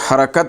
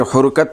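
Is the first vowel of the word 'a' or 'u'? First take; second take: a; u. First: The first vowel sounds like 'a'. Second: The first vowel sounds like 'u'. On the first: The speaker calls it right. "ये हरकत है" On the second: The speaker calls it wrong. "ये हुरकत नहीं"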